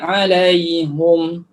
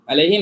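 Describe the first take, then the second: First: The vowel after the h is a u. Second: The vowel after the h is an i.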